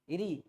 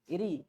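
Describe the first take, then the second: Both takes have the same delivery.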